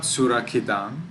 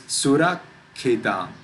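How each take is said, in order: First: Surakhitam run through with no stop at the k; single consonant. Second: Surakhitam with a held stop after surak; pause on double consonant. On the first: Teacher showing the wrong reading, surakhitam without a pause. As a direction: say surakhitam with one short k. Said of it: "Not surakhitam". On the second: Teacher showing the right reading, surakhitam with the k held. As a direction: get stuck at the k of surakhitam. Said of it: "It is surakhitam". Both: Shown as a demonstration.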